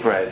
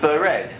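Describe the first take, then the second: First: The first two consonants run together without a vowel. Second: A short vowel separates the first two consonants. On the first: "It wouldn't be bread" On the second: "If bread would be a Hebrew word, it would be bered"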